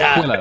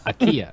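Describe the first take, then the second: First: It starts with the sound of aqua. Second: It sounds like it rhymes with tequila. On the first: The speaker calls it right. "like aqua" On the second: The speaker calls it wrong. "it's not Mexican"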